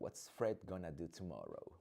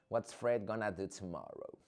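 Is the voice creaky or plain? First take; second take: creaky; plain. First: The voice is low and creaky. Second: The voice is plain, without creak.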